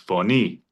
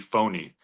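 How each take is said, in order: First: The stress is on the second syllable. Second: The stress is on the first syllable. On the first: It means voice or sound. The speaker calls it right. "But this is phony" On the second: It would sound like the English word phony. The speaker calls it wrong. "if you had put it on the first syllable"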